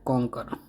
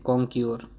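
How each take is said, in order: First: कॉन्कर ending in plain "kar"; correct pronunciation. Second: कॉन्क्योर ending in "kyor"; common mispronunciation. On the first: Teacher giving learners the real conquer, correct कॉन्कर. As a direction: say कॉन्कर as "konk-er", no y-glide. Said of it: "असल में ये कॉन्कर है". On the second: Teacher showing how many misread conquer, wrong कॉन्क्योर. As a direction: say कॉन्क्योर with a y-glide, "konk-yor". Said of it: "इसे कई लोग कॉन्क्योर भी पढ़ते हैं". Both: Shown as a demonstration.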